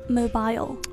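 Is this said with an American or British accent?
British. It is said with a British accent. "英式发mobile"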